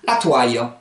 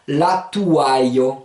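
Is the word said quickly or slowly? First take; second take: quickly; slowly. First: The word is said quickly, vowels run together. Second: The word is said slowly, vowel groups separated. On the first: "Rapidement, ça se dit" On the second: "Ça va donner"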